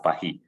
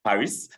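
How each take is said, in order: First: Paris is pronounced the French way. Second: Paris is pronounced the English way. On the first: This is how French speakers say it. "some of them pronounce that as Paris" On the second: This is how English speakers say it. "I'm an Anglophone. I pronounce that Paris"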